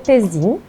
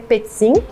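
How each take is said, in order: First: It is said with a Portuguese pronunciation. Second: It is said with the zz of pizza. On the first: This is how the name is said in Portuguese. "no português é Pezin" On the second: This is how the name would be said in Italian. "Se fosse buscar lá na origem italiana, seria Pezzin, que nem pizza"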